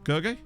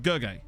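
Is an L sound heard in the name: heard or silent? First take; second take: silent; silent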